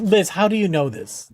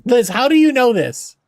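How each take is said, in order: First: Said in the usual way. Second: Higher, louder, stressing you; louder amazed repeat. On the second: Real, not acted. Asking Liz again how she knows, loud and amazed.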